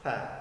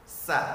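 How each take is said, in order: First: The consonant is a soft th sound. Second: The consonant is a hissing s sound. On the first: The speaker calls it right. "Jadi yang benarnya adalah ha" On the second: The speaker calls it wrong. "Contoh bacaan huruf ha yang salah"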